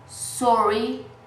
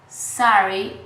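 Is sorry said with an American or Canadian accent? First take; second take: Canadian; American. First: The word is said with a Canadian vowel. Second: The word is said with an American vowel. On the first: "would say are Canadians" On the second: "would say Americans"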